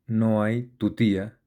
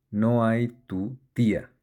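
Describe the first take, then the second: First: "tu tía" joined as one word, "tutía"; "tu tía" glued into a single smooth word; words run together. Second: "tu" and "tía" as two separate words, small gap between; spaced-out "no hay... tu... tía"; words set apart. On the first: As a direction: say "no hay tu tía" with no gap between "tu" and "tía". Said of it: "todo pegado". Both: Shown as a demonstration.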